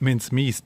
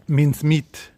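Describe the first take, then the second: First: Said in the usual way. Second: Mince punched louder and higher; stress on mince. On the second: Shown as a demonstration. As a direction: hit the word mince hard.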